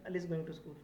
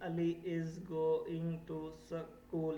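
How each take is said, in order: First: It is read smoothly and quickly without stopping. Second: It is read slowly, word by word, with breaks. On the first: The speaker calls it right. "Good fluency" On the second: The speaker calls it wrong. "ये गलत है, पूरा fluency है।"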